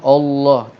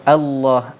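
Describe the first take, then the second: First: The opening vowel is heavy and thick. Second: The opening vowel is light with an open mouth. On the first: The speaker calls it wrong. "Tetapi hamzah di awal tu tak boleh tebal. Tak bolehlah Allah" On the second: The speaker calls it right. "Kita kena buka mulut sebab hamzah tu hurufnya istifal"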